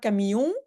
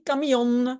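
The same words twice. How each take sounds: First: The final n is nasalized, not pronounced. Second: The final n is clearly pronounced. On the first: The speaker calls it wrong. "on ne dit pas camion" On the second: The speaker calls it right. "on prononce le N"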